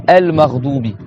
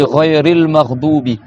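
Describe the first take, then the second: First: El Maghdubi starting on a clear El; article vowel sounded. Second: Ghayril Maghdubi run together as one phrase; linked, article vowel dropped. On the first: Teacher showing students El Maghdubi after a stop. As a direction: begin El Maghdubi afresh with its vowel. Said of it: "si tu arrêtes sur le mot". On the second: Teacher showing students Ghayril Maghdubi in liaison. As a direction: join Ghayril to Maghdubi without El. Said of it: "tu prononces pas le A". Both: Shown as a demonstration.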